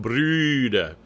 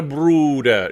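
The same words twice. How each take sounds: First: "Brüder" drawn out, ee through oo-shaped lips; rounded ü sound. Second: "Bruder" with a plain oo; wrong U vowel. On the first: Coach showing the vowel, "Brüder" with a long German ü. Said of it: "shaping your lips like an U". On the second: Coach warning the choir, "Bruder" mispronounced with oo. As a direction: say "Bruder" with dark oo, no ü. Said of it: "Again, not a Bruder". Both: Shown as a demonstration.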